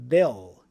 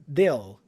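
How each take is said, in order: Both takes have the same delivery.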